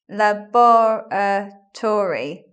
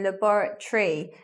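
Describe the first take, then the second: First: The word is said with all five syllables. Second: The vowel before the final -ry is dropped. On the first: The speaker calls it wrong. "five syllables, but we don't say it like that" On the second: The speaker calls it right. "We say laboratory"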